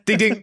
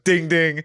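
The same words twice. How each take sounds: First: The two dings follow each other quickly. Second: The two dings are spaced slowly apart. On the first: The speaker calls it right. "Slightly more rapid" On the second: The speaker calls it wrong. "Not like that"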